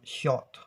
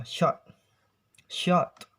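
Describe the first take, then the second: First: "shot" with a rounded aw-like o; British pronunciation. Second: "shot" as shaht, open ah vowel; American pronunciation. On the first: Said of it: "in British accents". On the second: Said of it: "in American accents". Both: Shown as a demonstration.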